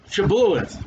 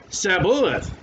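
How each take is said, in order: First: The word begins with an 'sh' sound. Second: The word begins with an 's' sound. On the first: This is the password said the proper way. The speaker calls it right. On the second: The speaker is an Ephraimite who cannot say 'sh'. The speaker calls it wrong. "he could not frame to pronounce it right"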